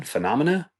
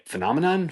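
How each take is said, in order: First: "Phenomena?" with the -na ending, rising; trying the other form. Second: "Phenomenon?" asked higher, ending in -non; unsure pronunciation. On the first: Vlogger testing the plural, rising "Phenomena?". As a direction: try "Phenomena?" as a question. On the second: Vlogger doubting the word, asks "Phenomenon?" higher. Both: Shown as a demonstration. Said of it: "Doesn't sound right".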